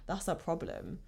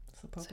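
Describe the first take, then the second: First: Said in the usual way. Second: Soft whispered echo of the line; whispered repeat. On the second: Shown as a demonstration. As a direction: breathe it out as a whisper.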